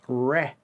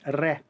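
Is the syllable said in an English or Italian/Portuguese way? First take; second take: English; Italian/Portuguese. First: The syllable is said with English sounds. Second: The syllable is said with Italian or Portuguese sounds. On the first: "in English, you guys don't pronounce it r. You, you say re" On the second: "In Portuguese and in Italian is re"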